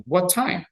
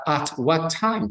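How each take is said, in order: First: Said in the usual way. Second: "at what time" said slowly as the incorrect version; wrong form. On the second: Shown as a demonstration. Teacher showing students the wrong "at what time". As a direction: flag "at what time" as what not to say. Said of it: "No es correcto o común en ellos preguntar".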